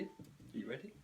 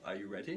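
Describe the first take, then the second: First: Softer teasing build-up. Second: Said in the usual way. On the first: Shown as a demonstration. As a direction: hush it to build suspense. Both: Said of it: "stirring impression of me".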